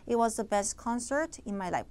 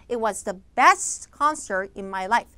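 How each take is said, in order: First: The word best carries no special stress. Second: The word best carries strong stress. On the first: The speaker calls it wrong. "만약에 최상급에다 강세를 못 주면요" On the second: The speaker calls it right. "최상급이기 때문에 당연히 강세 처리를 해야겠죠"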